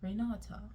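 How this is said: The name is said with a British accent. "There's the British way"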